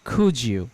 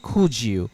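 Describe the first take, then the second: Both takes have the same delivery.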